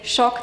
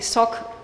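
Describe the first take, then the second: First: The word begins with a sh sound. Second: The word begins with a plain s sound. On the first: "They don't say shock" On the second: "they say sock or something similar"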